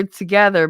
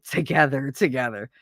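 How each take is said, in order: First: Said in the usual way. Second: "together, together" said low, each one weighted; doubled for emphasis. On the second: Shown as a demonstration. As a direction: say "together, together" as two separate, meaningful beats. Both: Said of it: "saying something double means it".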